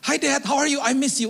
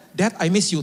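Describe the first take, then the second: First: Put-on high-pitched eager child's greeting; little child. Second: Brief matter-of-fact greeting; grown child. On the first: Young child hugging returning father, high excited imitation. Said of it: "Sama seperti anak kecil". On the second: Retold or imitated. Adult child hugging father, brief understated greeting. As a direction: lightly imitate a grown child, keep it plain. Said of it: "Sekarang mereka udah pada dewasa".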